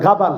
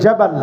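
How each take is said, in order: First: The word begins with a g sound. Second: The word begins with a j sound. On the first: "জিমকে অনেক জায়গায় গাইনের মতো উচ্চারণ করে, বলে গাবাল" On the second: "অ্যারাবিয়ানরা বলে জাবাল"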